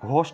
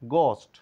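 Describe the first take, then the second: First: The first g has a breathy release. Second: The first g has a plain release. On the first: The speaker calls it wrong. "বলে থাকলেও" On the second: The speaker calls it right. "সঠিক উচ্চারণ"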